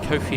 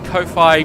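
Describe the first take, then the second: First: The word is said like the name Kofi. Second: The word ends rhyming with hi-fi. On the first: "like Kofi Annan" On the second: "because it's like J B Hi-Fi"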